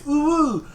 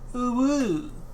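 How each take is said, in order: First: It is said earnestly, with real feeling. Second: It is said flatly, without real feeling. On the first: The speaker is genuinely impressed. The speaker calls it right. "you need to say it earnestly" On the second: The speaker is not really impressed. The speaker calls it wrong. "your heart's not in it"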